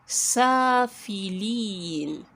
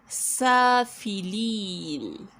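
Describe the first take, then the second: The two takes are said the same way.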